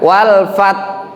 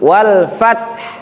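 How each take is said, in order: First: It ends without an audible hissing h. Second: It ends with an audible hissing h. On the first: The speaker calls it wrong. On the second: The speaker calls it right. "Ada desisan hak di situ"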